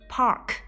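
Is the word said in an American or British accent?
American. It is said with a curled r sound. "我都是使用的美式发音"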